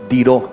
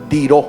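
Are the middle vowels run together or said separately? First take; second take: run together; run together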